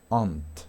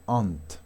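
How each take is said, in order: The two takes are said the same way.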